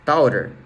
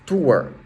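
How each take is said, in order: First: The word is pronounced the Portuguese way. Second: The word is pronounced the English way. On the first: The speaker calls it wrong. "de uma forma mais aportuguesada" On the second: The speaker calls it right. "a pronúncia correta é Tour"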